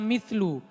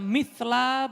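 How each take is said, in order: First: The word ends in an 'u' vowel. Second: The word ends in an 'a' vowel. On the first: The word is the predicate of an omitted subject. "boleh dibaca mithlu" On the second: The word describes the state of the subject. "Boleh dibaca mithla"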